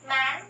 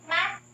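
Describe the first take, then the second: First: MAN climbing gradually through the final n; longer rising tone. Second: MAN high and cut short; short, steep tone. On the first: Teacher compares syllable endings, MAN with a gradual rise. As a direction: draw MAN upward from the usual pitch. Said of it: "Let's compare". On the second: Teacher compares syllable endings, MAN short, high and steep. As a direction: jump up on MAN and stop it dead. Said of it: "will become fairly short and steep". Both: Shown as a demonstration.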